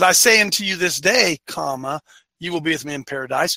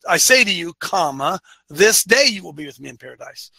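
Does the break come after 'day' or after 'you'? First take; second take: day; you. First: The break comes after 'this day'. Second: The break comes after 'to you'.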